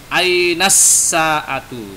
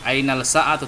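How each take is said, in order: First: The l merges into a doubled s sound. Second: A clear l sound comes before sa'atu. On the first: The speaker calls it right. "tapi ainas sa'atu" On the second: The speaker calls it wrong.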